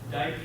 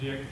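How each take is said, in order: First: The name has the vowel of "bike". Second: The name has the vowel of "sick". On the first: The speaker calls it right. "correct pronunciation" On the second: The speaker calls it wrong. "it looks like it's Dick"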